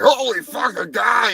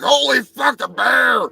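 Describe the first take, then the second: First: The bear jumps at spotting the man; startled bear shout. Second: Higher, louder startled yelp as the man; the man jumps at spotting the bear; startled man shout. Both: Retold or imitated.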